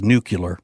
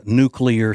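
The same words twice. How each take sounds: First: "nuclear" said as nuke-you-ler, with a "yuh" before the L; "nuclear" spoken as nucular, three syllables; mispronounced nucular. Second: Said in the usual way. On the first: Retold or imitated. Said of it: "She says nuclear". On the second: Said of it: "wish that she would pronounce it properly".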